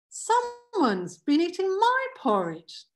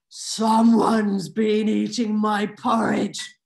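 First: It is said in a plain Mama Bear voice. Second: It is said in a growling Papa Bear voice.

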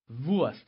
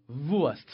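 No difference in how they are said.

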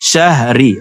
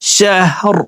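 First: The word ends with a short i vowel. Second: The word ends on a bare r sound. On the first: The word is read in running recitation. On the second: The reader stops at this word.

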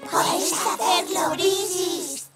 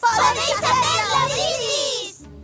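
First: It is said very softly. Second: It is shouted loudly. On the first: The speaker calls it right. "Un poco más bajito" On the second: The speaker calls it wrong. "No tenía ni idea de que fuera tan difícil gritar sin hacer ruido"

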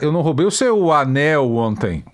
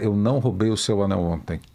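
First: The stress falls on the word anel. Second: It is said flat, with no word stressed. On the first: "Eu roubei a bota" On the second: "Sem ênfase. ... Uma coisa bem monocórdica"

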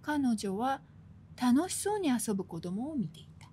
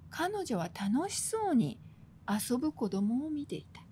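First: There is a pause right after kanojo wa. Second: There is a pause right after tanoshisou ni. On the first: The playing children are the happy ones. "彼女はの後で点をつけると" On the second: The woman watching is the happy one. "楽しそうなのは彼女で"

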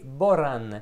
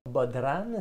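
First: No d sound is pronounced in the middle. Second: A d sound is pronounced in the middle. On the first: The speaker calls it right. "c'est Boran" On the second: The speaker calls it wrong. "si tu le prononces, tu vas te faire détester. C'est pas Bodran"

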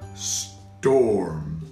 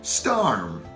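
First: The vowel sounds like 'or' as in corn. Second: The vowel sounds like 'ar' as in arm. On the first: The speaker calls it right. "That sounds a little bit better" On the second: The speaker calls it wrong. "let's try both AR and OR to see which one is a better fit. ... That doesn't sound right"

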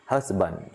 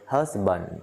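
Both takes have the same delivery.

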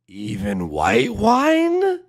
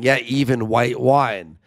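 First: It sounds like a disbelieving question. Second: It sounds like calm agreement.

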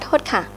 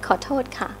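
First: The first syllable is dropped, giving a shortened form. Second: The full form keeps the first syllable. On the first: The speaker is in a hurry. "Now they drop the call, of course" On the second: A standard way to say sorry or excuse me. "That's right"

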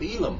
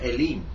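First: The word is pronounced in an English-style way. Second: The word is pronounced closer to the Hebrew.

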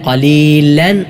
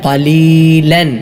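The two takes are said the same way.

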